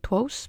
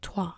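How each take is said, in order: First: The word ends with a clear 's' sound. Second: The word ends without any 's' sound. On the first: The speaker calls it wrong. "I was going to say Twos because it's spelled T-R-O-I-S" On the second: The speaker calls it right. "But that's how you say it"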